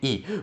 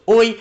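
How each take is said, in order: First: The article is a single 'e' vowel. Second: The article is the gliding vowel 'oi'. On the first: This is the modern pronunciation. "we're only left with e and e" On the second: This is the ancient pronunciation. "back in the day would be pronounced oi"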